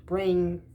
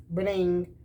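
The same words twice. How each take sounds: The two takes are said the same way.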